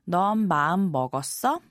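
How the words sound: The voice rises at the end like a question. It asks whether the person has made up their mind. The speaker calls it right. "it actually feels more natural to change the intonation and ask"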